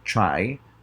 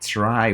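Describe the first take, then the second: First: It begins with a CH sound before R. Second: It begins with a crisp T sound before R. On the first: The speaker calls it right. "the T R transforming into C H R" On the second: The speaker calls it wrong. "instead of pronouncing try"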